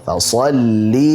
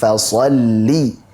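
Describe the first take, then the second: Both takes have the same delivery.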